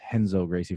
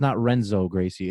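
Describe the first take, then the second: First: The first name begins with an H sound. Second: The first name begins with an English R sound. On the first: The speaker calls it right. "it's Henzo Gracie" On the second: The speaker calls it wrong. "like it's not Renzo Gracie"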